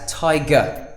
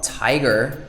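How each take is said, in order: First: The final R is dropped, British style. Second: The final R is clearly pronounced.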